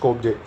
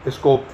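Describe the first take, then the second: First: The word ends with the 'je' sound pronounced. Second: The word ends without the final 'je' sound. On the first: "या स्कोपजे बोलना है" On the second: "हालांकि जे silent रहता है"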